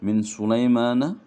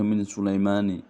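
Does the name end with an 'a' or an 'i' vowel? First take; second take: a; i. First: The name ends with an 'a' vowel. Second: The name ends with an 'i' vowel. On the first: The speaker calls it right. "nah di sini min Sulaimana" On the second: The speaker calls it wrong. "jadi enggak boleh min Sulaimani"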